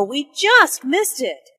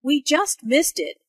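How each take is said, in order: First: "just" lifted and leaned on, said slowly; stress on just. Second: "just" lifted and leaned on; stress on just. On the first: Teacher stressing "just" to students, leaning on it. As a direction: press on "just" to show it only happened. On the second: Teacher showing students the stress on "just". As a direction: hit the word "just". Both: Shown as a demonstration. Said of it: "Notice the emphasis on just".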